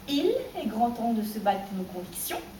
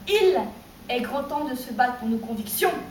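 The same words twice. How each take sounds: First: The first and last syllables get no special push. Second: The first and last syllables are pushed with energy.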